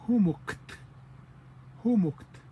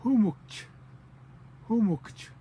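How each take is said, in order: First: "humukt" ending in a crisp t; own dialect's ending. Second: "humukch" closing on a clear "ch"; higher, louder "humukch", released as ch at the end. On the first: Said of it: "that we say". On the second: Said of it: "ch with the C". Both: Shown as a demonstration.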